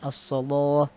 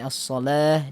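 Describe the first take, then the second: First: The L sound is thick and heavy. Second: The L sound is thin and light. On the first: "dibaca dengan as-shalah" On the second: "harusnya as-shalah"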